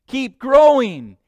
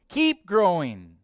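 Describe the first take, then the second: First: Much louder and higher, slow "Keep growing"; booming command. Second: Slower, lands on "Keep" with less force; firm repeat. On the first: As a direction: hammer it slowly at full voice. Preacher drives the command home. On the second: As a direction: press on "Keep" and ease off. Preacher repeats, pulling back. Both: Acted.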